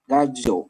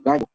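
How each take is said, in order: First: "Gallo" with an Argentine-style ll. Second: Said in the usual way. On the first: Shown as a demonstration. Teacher showing students Argentine pronunciation, "Gallo" with Argentine ll. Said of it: "En Argentina pronuncian la L". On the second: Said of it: "Pero que no es gallo".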